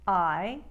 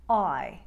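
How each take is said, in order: First: Said in the usual way. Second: "I" with a narrower start, toward oy; loud New York "I", narrowed diphthong. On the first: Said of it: "Important New York sound number three". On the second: Shown as a demonstration. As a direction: narrow the glide in "I". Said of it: "a little bit more narrow".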